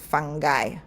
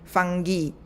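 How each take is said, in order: First: It uses the older British pronunciation. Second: It uses the modern British pronunciation. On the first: "the old older British people pronounce fungi" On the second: "the modern British they, they pronounce it as fungi"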